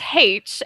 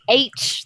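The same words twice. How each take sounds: First: The letter name begins with an h sound. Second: The letter name begins with a vowel sound. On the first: The speaker calls it right. "It's pronounced H" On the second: The speaker calls it wrong. "there's no where's the where's the H in it?"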